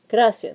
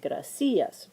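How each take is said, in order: First: The stress is on the first syllable. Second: The stress is on the second syllable. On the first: The speaker calls it right. "we'll put the stress on the second to last syllable, which is gra" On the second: The speaker calls it wrong. "that's why you don't say"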